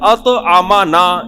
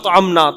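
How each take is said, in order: First: The m is followed by a short a vowel. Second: The m has no vowel after it. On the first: God fed us. The speaker calls it right. "जिसने हमें खिलाया" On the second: We fed God. The speaker calls it wrong. "मीम के जबर को जज़म कर दें"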